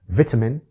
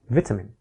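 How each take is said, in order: First: The second syllable has a full vowel. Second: The second syllable has a weak uh vowel. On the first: "a can be reduced to uh" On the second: "reduced to uh in an unstressed syllable"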